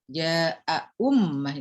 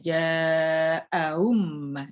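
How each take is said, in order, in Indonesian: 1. Hamzah kedua diucapkan penuh dan jelas. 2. Hamzah kedua dilunakkan, tidak diucapkan penuh. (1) "itu tahqiq" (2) "itu tasil"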